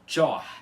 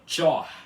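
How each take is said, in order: The two takes are said the same way.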